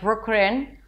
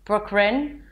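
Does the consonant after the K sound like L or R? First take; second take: R; R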